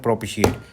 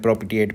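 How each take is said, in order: First: The middle syllable uses an 'sh' sound. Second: The middle syllable uses a 't' sound. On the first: The speaker calls it right. "प्रोपिशिएट है इसका pronunciation" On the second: The speaker calls it wrong. "मैं प्रोपिटिएट पढ़ रहा हूँ"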